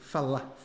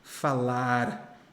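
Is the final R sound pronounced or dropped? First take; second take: dropped; pronounced. First: The final R sound is dropped. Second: The final R sound is pronounced. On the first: The speaker calls it right. "A gente não usa o R" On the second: The speaker calls it wrong. "nós não falamos falar"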